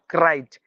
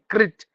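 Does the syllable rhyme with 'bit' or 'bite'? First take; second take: bite; bit. First: The vowel is long, rhyming with bite. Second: The vowel is short, rhyming with bit. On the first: The speaker calls it wrong. "not crite" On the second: The speaker calls it right.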